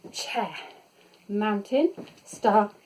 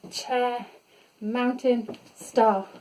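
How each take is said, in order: Both takes have the same delivery.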